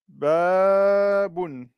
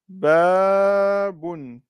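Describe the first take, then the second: First: The first vowel is held long. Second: The same.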